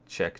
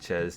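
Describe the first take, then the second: First: The word ends with a k sound. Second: The word ends with an s sound. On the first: The speaker calls it right. "how to actually pronounce it" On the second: The speaker calls it wrong. "I always used to call it Ches"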